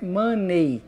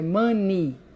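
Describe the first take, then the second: First: The final vowel is not an 'ee' sound. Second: The final vowel is an 'ee' sound. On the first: The speaker calls it wrong. "não é money" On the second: The speaker calls it right. "é money, com I"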